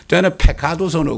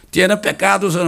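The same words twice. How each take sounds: First: "pecados" with puffy, aspirated p and k; slow Spanish "pecados" without tense stops; English speaker's aspirated consonants. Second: "pecados" with tight, unaspirated p and k; crisp tense stops in "pecados"; tense Korean-style consonants. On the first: Retold or imitated. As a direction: mimic an English speaker saying "pecados" as phe-kha-dos. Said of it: "영어 하는 사람은 오히려 잘 못해". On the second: Shown as a demonstration. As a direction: say "pecados" as ppek-kkadoseu. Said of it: "하면 된 소리를 못해".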